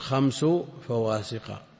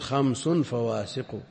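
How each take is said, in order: First: The first word ends without an added n sound. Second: The first word ends with an added n sound. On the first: "هو بإضافة خمس لا بتنوينه، يكون" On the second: "وإلا على التنوين"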